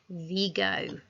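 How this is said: Vigo is said with a Spanish pronunciation. "they pronounce it Vigo"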